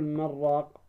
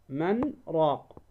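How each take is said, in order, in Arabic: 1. الكلمتان متصلتان دون وقفة. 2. توجد وقفة قصيرة بعد الكلمة الأولى. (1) "فلا تقول" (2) "لأن فيها سكت"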